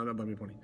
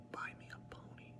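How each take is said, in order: First: Said in the usual way. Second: Sneaky whispered joke request; mischievous whispered aside. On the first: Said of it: "Oh, wait, no, no". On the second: Pretend. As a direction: slip it in as a whisper.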